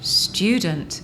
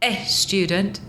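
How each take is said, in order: First: The word starts directly with the s sound. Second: An extra e sound comes before the s. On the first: The speaker calls it right. "it's student" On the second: The speaker calls it wrong. "try to put an extra E in front of the S T"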